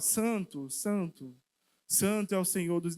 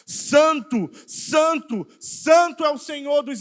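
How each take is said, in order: First: The phrase is said at a calm volume. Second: The phrase is shouted loudly. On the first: This is not how the heavenly beings proclaimed it. The speaker calls it wrong. "eles não estão dizendo assim, ó" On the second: The heavenly beings cry out because of God's presence. The speaker calls it right. "estão gritando"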